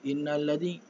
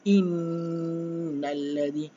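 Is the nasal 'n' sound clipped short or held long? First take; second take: short; long. First: The nasal n is clipped short and rushed. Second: The nasal n is held for two counts. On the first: The speaker calls it wrong. "kita nak baca cepat, tapi tidak terjaga bacaan tajwidnya" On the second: The speaker calls it right. "perlu dengung berapa harakat? Dua harakat"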